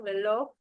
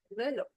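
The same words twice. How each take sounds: First: The final syllable is said with extra force. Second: The final syllable is said without extra force. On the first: "le está dando una mayor fuerza en la O" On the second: "si yo no le agrego esa fuerza de voz"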